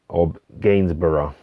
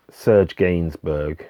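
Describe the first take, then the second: First: Gainsborough said the English way, GAINS-bruh; anglicised Gainsborough, stress on the first syllable; English pronunciation. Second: Gainsbourg said the French way, slowly, stress on the last syllable; French pronunciation. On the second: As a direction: Serge Gainsbourg with French vowels, unhurried. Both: Shown as a demonstration.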